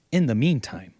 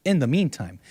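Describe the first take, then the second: No difference in how they are said.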